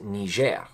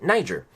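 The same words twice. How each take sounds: First: It is said with the French-style pronunciation. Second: It is said with the American English pronunciation. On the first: "it's actually a country that speaks French, and I believe you pronounce it Niger" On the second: "that's how we pronounce it"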